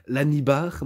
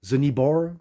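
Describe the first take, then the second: First: It is pronounced with a French-like pronunciation. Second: It is pronounced with an English-like pronunciation. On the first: The speaker calls it wrong. "c'est assez bizarre qu'on le dit, l'anibar" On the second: The speaker calls it right. "j'essaye de, de mieux le prononcer"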